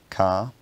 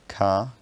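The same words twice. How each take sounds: The two takes are said the same way.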